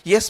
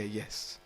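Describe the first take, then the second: First: It sounds polite and acknowledging. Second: It sounds sarcastic and dismissive. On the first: The speaker sincerely agrees. "The first time is polite, acknowledging" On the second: The speaker does not really agree and wants the other gone. "The second one is sarcastic"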